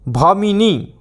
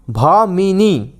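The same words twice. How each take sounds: First: Said in the usual way. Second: Bhamini stretched out slowly, syllable by syllable; slowly drawn out. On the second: Shown as a demonstration. Teacher repeats Bhamini very slowly for students to memorise.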